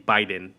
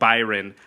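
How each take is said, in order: First: The name is said Japanese-style, R like D. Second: The name is said with a plain R sound.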